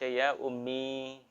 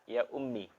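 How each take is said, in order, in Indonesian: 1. Vokal akhirnya panjang. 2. Vokal akhirnya pendek. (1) "pakai ya" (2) "Ummi tidak pakai ya"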